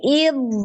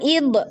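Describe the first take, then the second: First: The final consonant flows on with continuing sound. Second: The final consonant is cut off abruptly. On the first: The speaker calls it right. "tapi im" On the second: The speaker calls it wrong. "Jangan ib"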